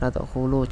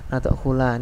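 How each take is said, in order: First: The word ends with a final u vowel. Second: The word ends with a final a vowel. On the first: "juga salah" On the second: "lamnya juga harokat fathah, salah"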